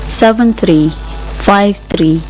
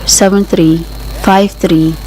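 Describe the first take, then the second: No difference in how they are said.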